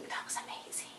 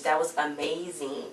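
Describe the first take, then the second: First: Barely audible whispered praise; awed whisper. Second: Said in the usual way. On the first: Real, not acted. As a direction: repeat it in a hushed whisper.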